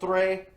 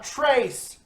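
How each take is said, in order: First: The word ends without an s sound. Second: The word ends with an s sound. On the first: The speaker calls it right. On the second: The speaker calls it wrong.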